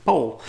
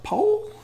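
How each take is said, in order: First: Said in the usual way. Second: Put-on very high, questioning child's voice; little American girl. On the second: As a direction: squeak the name as a puzzled question. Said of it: "little American girl".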